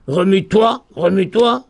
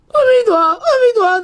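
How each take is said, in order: First: "Remue-toi" with weight on final "toi"; measured, landing on "toi" in "Remue-toi"; stress on the last syllable. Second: "Remue-toi" high and urgent, weight before "toi"; early stress. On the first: Teacher translates the first call, "Remue-toi" stressed on "toi". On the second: Teacher translates the second call, "Remue-toi" high with early stress. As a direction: cry out "Remue-toi", pitch jumping high from the start. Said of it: "Milaël". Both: Shown as a demonstration.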